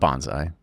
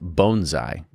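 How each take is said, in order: First: The first syllable does not sound like 'bone'. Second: The first syllable sounds like 'bone'. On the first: The speaker calls it wrong. "It's not bonsai" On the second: The speaker calls it right. "bone and then sai at the end"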